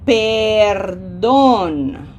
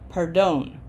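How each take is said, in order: First: The first vowel is long and clear. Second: The first vowel is short and reduced. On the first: The speaker calls it right. "This is a long, strong, clear eh" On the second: The speaker calls it wrong. "if we shortened this E, that would be accent"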